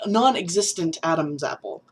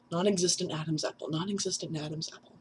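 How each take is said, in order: First: Said in the usual way. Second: Fast, softening repeats; tongue-twister practice. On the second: Real, not acted. Testing a tongue twister on themself, quick and softer. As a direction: rattle it off quickly under your voice. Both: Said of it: "That's a tongue twister".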